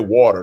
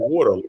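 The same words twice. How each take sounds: First: It is said in a standard West Coast accent. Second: It is said in a Philadelphia accent. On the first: "They don't say water" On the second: "They say water. They're from Philly"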